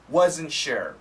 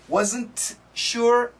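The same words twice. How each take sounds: First: The T at the end of wasn't is dropped. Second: The T at the end of wasn't is pronounced. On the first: The speaker calls it right. "This N cancels the T" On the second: The speaker calls it wrong.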